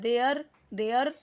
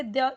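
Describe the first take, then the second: First: "there" drawn into "de-yar" with a full r; mispronunciation demo. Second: "there" cut short as "deh", no r; correct pronunciation. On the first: Teacher showing what not to read, over-pronounced r in "there". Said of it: "र पूरा नहीं पढ़ना है". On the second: Teacher showing how much to read, r-less "there". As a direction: say "there" without sounding the final r. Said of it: "इतना ही पढ़ना है". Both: Shown as a demonstration.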